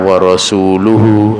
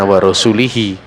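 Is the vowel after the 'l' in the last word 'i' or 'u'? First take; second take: u; i. First: The vowel after the 'l' is a 'u' sound. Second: The vowel after the 'l' is an 'i' sound. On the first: The Messenger also disowns the idolaters. The speaker calls it right. "dibaca wa rasuluhu pakai dhammah marfu" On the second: God disowns the idolaters and His Messenger. The speaker calls it wrong. "enggak seperti itu bacaannya"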